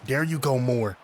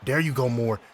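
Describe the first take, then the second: No difference in how they are said.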